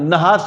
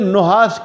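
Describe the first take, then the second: First: The first vowel is a. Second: The first vowel is u. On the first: The speaker calls it wrong. "नहास भी नहीं पढ़ना" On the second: The speaker calls it right. "नून को जम्मा दे के पढ़े"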